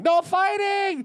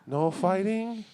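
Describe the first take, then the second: First: It is screamed loudly at full volume. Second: It is said softly as a desperate plea.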